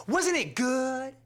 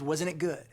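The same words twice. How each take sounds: First: High, slow, drawn-out gush; gushing fan. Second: Said in the usual way. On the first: Retold or imitated. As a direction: savour every word like she loved it. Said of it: "She goes". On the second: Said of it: "her response was".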